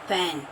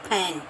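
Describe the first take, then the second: No difference in how they are said.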